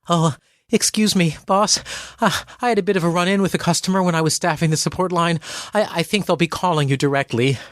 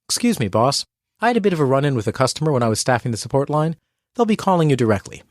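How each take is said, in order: First: It sounds hesitant, apologetic and a little panicked. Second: It sounds confident, calm and concise.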